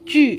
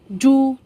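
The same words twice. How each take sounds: First: The vowel is a rounded ee sound. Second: The vowel is a plain oo sound. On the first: The speaker calls it right. "it stands for U sounds" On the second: The speaker calls it wrong. "no. Hindi po ganyan ang pagbasa"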